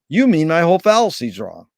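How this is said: It is said with a flat statement intonation. The speaker is asserting that the fallacy is wrong. "Woody had him say it as a statement"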